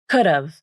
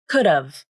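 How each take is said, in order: First: It ends with a v sound. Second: It ends with a v sound.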